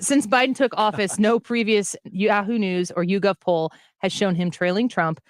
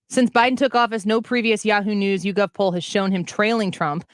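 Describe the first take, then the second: First: It is read slowly. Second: It is read at a normal speed.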